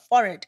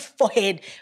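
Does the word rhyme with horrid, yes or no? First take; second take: yes; no. First: The word rhymes with horrid. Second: The word does not rhyme with horrid. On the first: The speaker calls it right. "it's a forehead, guys. Like horrid forehead" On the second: The speaker calls it wrong. "Not forehead"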